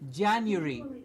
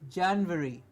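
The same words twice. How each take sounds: First: A you sound is heard after the n. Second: A v sound is heard after the n. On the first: The speaker calls it right. "There is no V. It's Jan and a U, like U, Y O U" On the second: The speaker calls it wrong. "we get a V and we say January. It is not January"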